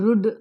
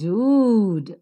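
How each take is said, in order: First: The vowel is short. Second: The vowel is long. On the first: The speaker calls it wrong. "or rud" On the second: The speaker calls it right. "the longer pronunciation"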